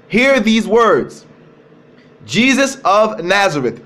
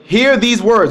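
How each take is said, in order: First: Each word slowed and spaced out; slow, weighty reading. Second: Said in the usual way. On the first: Shown as a demonstration. Preacher telling the listeners to listen, slow weighty reading. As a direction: draw out Hear these words for the congregation. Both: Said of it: "I want you guys to listen".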